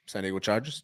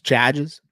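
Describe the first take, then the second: First: Said in the usual way. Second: "Chargers" in a Boston accent. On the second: Shown as a demonstration. Fan playing with the team name, Boston accent. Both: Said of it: "Can you imitate a Boston accent?".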